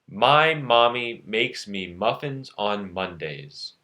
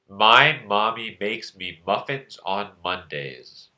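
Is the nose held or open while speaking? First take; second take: open; held. First: It is said with the nose open. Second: It is said with the nose held shut.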